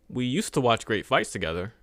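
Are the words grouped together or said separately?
grouped. The words are grouped together in chunks.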